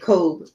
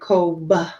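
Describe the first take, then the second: First: The final consonant is dropped. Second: The final consonant is clearly released. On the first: The speaker calls it wrong. "you don't just drop it off and say Kobe" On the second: The speaker calls it right. "It's like Kobe, almost like you're saying Koba, but not that hard"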